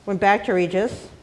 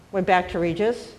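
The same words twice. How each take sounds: The two takes are said the same way.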